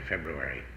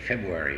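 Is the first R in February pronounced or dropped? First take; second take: pronounced; dropped. First: The first R sound is clearly pronounced. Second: The first R sound is left out. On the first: The speaker calls it right. "they don't forget that R in there" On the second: The speaker calls it wrong. "So many of them say February"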